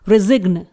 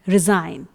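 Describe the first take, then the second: First: A g sound is heard in the word. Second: The g is silent in the word. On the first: The speaker calls it wrong. "यदि हम यहाँ पर जी का sound निकालते हैं ... जो कि रॉन्ग होगा" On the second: The speaker calls it right. "इस वर्ड में आप जो ज का साउंड सुन रहे हैं वो एस का साउंड है, ना कि जी का"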